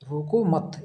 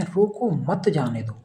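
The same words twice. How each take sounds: First: रोको मत run together as one phrase; pause after मत. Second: रोको stressed, then मत जाने दो as one phrase; slow line, split between रोको and मत; pause after रोको. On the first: Teacher showing the opposite meaning, pause after मत. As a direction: join मत onto रोको, then break. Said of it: "रोको मत यहाँ अल्प विराम". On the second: Teacher contrasting two readings for students, pause after रोको. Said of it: "रोको अल्प विराम मत जाने दो". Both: Shown as a demonstration.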